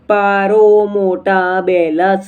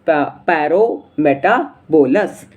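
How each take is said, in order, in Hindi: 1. बीच का हिस्सा 'mota' बोला जाता है, 'belas' से पहले अलग करके। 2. बीच का हिस्सा 'meta' बोला जाता है, एक साथ सहजता से जोड़कर। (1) "नहीं बच्चों ऐसे नहीं बोल देंगे" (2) "क्या बोलेंगे अपन"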